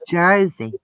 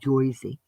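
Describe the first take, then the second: First: The first vowel sounds like 'er'. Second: The first vowel sounds like 'oy'. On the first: This is how locals really say it. The speaker calls it right. "it's Jersey" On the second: This is a stereotyped outsider version. The speaker calls it wrong. "It ain't Joyzy"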